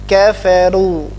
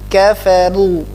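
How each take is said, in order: No difference in how they are said.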